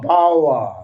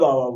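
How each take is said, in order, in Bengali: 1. দ্বিতীয় ব্যঞ্জনবর্ণটি 'ওয়' ধ্বনি। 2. দ্বিতীয় ব্যঞ্জনবর্ণটি 'ব' ধ্বনি। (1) "তাহলে হয়ে যাচ্ছে বাওয়া বাওয়া" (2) "আমরা বাবা বলছি"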